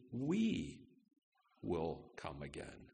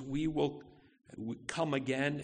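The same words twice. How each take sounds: First: "We" set apart by a pause, the rest dropping low and soft; stress on We. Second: Said in the usual way. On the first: Shown as a demonstration. Pastor pointing out Abraham's exact words, stress on "We". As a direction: lean on "We", pause, then quietly finish. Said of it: "the emphasis". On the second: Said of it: "it, it's actually".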